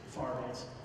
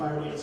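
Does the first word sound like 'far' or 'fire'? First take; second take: far; fire. First: The first word is drawled so it sounds like 'far'. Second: The first word is said as a plain 'fire'. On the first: "say it right. Okay. Far Dance" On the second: "every time I say, all right, guys, we're going to do Fire Dance"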